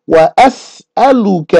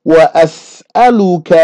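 No difference in how they are said.

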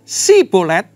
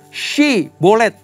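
First: The word begins with an 's' sound. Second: The word begins with an 'sh' sound. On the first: The speaker calls it wrong. "enggak pakai Y" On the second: The speaker calls it right. "pakai Y"

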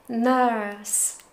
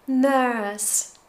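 The two takes are said the same way.

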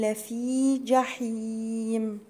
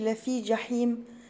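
First: The vowel ending the first word is lengthened. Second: The vowel ending the first word is short. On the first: The speaker calls it right. "برضو الياء لفي فيها مد طبيعي" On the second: The speaker calls it wrong. "ما اقولش لفي جحيم"

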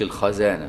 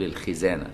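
First: The first consonant is followed by an 'a' vowel. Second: The first consonant is followed by an 'i' vowel. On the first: The speaker calls it wrong. "ما تفتحش خاء الخزانة، يعني تقولش الخزانة" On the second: The speaker calls it right. "تقول الخزانة"

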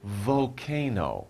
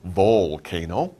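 First: The L sound is weak and barely heard. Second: The L sound is pronounced clearly and fully. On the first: The speaker calls it right. "We don't really pronounce the L. You say volcano" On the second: The speaker calls it wrong. "You don't say volcano"

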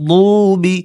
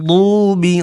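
No difference in how they are said.

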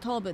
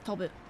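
First: A vowel in the word is drawn out long. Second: The vowels in the word are kept short. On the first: The speaker calls it wrong. "that's not tobu" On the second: The speaker calls it right. "It's not long. It's shortened"

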